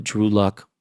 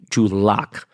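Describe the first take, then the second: First: "Drew Luck" said with the vowel of luck, uh sound; wrong name slip. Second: "Drew Lock" with the vowel of lock, ah sound; corrected name. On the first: Vlogger to viewers, slips on the quarterback's name "Drew Luck". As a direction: misnames him as "Drew Luck" before catching it. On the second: Vlogger correcting himself to viewers, "Drew Lock" said carefully. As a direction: fix it to "Drew Lock", slow and deliberate. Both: Real, not acted. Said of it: "sorry, Drew Lock".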